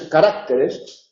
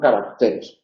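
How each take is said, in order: First: The stress is on the second syllable. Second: The stress is on the third syllable. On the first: The speaker calls it wrong. "no es" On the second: The speaker calls it right. "sino caracteres"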